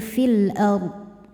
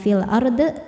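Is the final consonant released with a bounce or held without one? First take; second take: held; bounced. First: The final consonant is held without any bounce. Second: The final consonant is released with an echoing bounce. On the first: The speaker calls it right. "Bodnya harus tetap terbaca tapi tidak memantul" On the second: The speaker calls it wrong.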